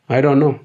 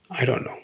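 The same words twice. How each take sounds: First: Said in the usual way. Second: Much softer, half to self; barely audible I don't know; muttered under breath. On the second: Real, not acted. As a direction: mumble it to yourself, deflated. Muttered despair, then repeated.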